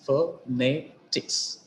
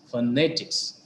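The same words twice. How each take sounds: First: "phonetics" slowly split as pho, ne, tics; syllable by syllable. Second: Said in the usual way. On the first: Shown as a demonstration. Teacher dividing an example word, "phonetics" slowly in separate syllables. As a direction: pause between each syllable of "phonetics". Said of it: "the stress is on penultimate syllable". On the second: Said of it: "The words ending with I C S".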